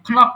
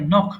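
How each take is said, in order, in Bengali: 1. k ধ্বনিটি n-এর আগে উচ্চারিত হয়। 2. শব্দটি n ধ্বনি দিয়ে শুরু হয়। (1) "অথবা খনাক তো" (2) "খের উচ্চারণ করা যাবে না"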